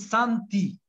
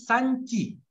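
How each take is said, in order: First: The t stays hard before the vowel. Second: The t is softened before the vowel. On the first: The speaker calls it right. "мягкого «ти» и «ди» быть не может. И там должно быть «санти»" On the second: The speaker calls it wrong. "Рамиля честно говорит «санти»"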